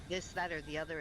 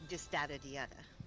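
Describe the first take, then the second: First: The th sounds are said as plain English th. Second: The th sounds are said as d in French accent. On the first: "instead of this" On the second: "like English with a French accent, just change all your E's to D's"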